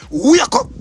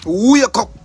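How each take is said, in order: First: Loud, high "wake up" rising; shouted wake up. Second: Louder "Wake up", "wake" hit and falling. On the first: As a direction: yell it at them. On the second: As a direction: command it with force. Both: Real, not acted.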